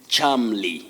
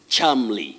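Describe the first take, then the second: No difference in how they are said.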